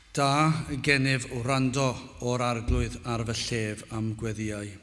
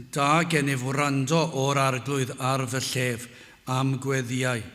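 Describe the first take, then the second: Both takes have the same delivery.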